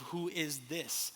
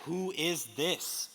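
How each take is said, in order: First: "Who is this?" drawn out slowly, each word apart; slow weighty question. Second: "Who is this?" stretched slow, rising at the end; slow weighty question. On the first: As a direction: let "Who is this?" hang, slow and soft. Posing the key question. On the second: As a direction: ask it slowly, leave it open. Question repeated. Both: Real, not acted.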